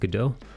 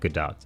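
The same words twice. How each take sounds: First: The name is pronounced the French way. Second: The name is pronounced not the French way. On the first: The way most people say it by default. "the French way" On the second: The way the name's owner says it. "she pronounces it"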